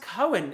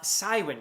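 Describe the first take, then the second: First: The name begins with a hard K sound. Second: The name begins with a soft S sound. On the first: This is how it is said in Welsh. The speaker calls it right. "pronounced Cohen in Welsh with a hard C" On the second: This is how many people probably say it. The speaker calls it wrong. "not Cywyn, as I'm sure probably a lot of people do pronounce it"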